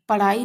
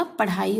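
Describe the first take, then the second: First: पढ़ाई said "paraai", flap without breath; missing aspiration. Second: Said in the usual way. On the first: Shown as a demonstration. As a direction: leave the H out of पढ़ाई. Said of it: "नहीं होता". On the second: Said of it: "पढ़ाई होती है".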